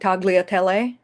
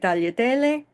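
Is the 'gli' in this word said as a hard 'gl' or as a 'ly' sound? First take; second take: hard gl; ly. First: The middle is said with a hard g and l. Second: The middle is said with a soft 'ly' sound. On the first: The speaker calls it wrong. "to impress your friends by not saying tagliatelle" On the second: The speaker calls it right. "you can say tagliatelle"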